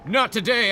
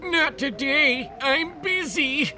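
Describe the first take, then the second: First: Dad voice. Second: High, slow put-on dad voice. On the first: Acted. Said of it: "okay. I'm gonna do". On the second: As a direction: redo it slower as the dad. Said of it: "I'm gonna do, I'm gonna do".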